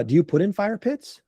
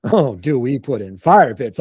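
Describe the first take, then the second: First: Imitating a client's tentative inquiry; lightly acted curious client; curious question. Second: Low, slow mock pondering; drawn-out, playful salesman's echo; knowing echo. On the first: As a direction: ask with a rising end. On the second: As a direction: savour the question as if it's obvious. Salesman echoes question, relishing it.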